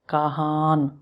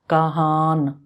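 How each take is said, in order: No difference in how they are said.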